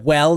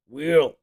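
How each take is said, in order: First: The vowel is an open 'eh' sound. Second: The vowel is raised to an 'ih' sound. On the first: "Instead of well" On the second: "they say will. This is in the South"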